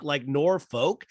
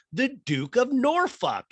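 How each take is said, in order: First: "Norfolk" slow, ending in "folk"; "Norfolk" drawn out, "folk" sound; Norfolk as "Nor-folk". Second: "Norfolk" slow, ending in "fuck"; "Norfolk" drawn out with a "fuck" ending; Norfolk as "Nor-fuck". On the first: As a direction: say "Norfolk" with a clear "folk" at the end. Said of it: "Is it folk". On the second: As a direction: say "Norfolk" so the end sounds like "fuck". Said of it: "That's how you say it". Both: Retold or imitated.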